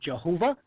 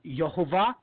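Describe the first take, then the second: First: The name begins with a 'j' sound. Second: The name begins with a 'y' sound. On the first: "some people pronounce it Jehovah" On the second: "Some people uh, pronounce it uh, Yehovah"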